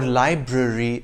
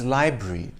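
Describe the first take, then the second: First: Both R sounds are pronounced in full. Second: The middle R sound is dropped. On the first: "or library" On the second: "the R from library"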